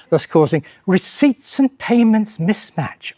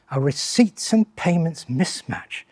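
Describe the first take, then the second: First: Said in the usual way. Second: Slow, soft, mock-impressed echo of the jargon; dry ironic repeat. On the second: Shown as a demonstration. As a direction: savour the jargon slowly with quiet irony. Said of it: "That sounds good".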